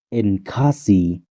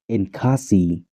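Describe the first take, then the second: Both takes have the same delivery.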